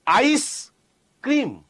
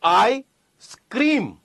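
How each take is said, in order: First: Slow આઈસ, pause, ક્રીમ; ice cream. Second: Slow આઈ, pause, સ્ક્રીમ; I scream. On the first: Teacher contrasting two similar-sounding phrases, slow "ice cream". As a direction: split it after the S: આઈસ / ક્રીમ. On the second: Teacher contrasting two similar-sounding phrases, slow "I scream". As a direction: split it before the S: આઈ / સ્ક્રીમ. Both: Shown as a demonstration. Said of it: "બોલવામાં તમને બે હરખા લાગશે".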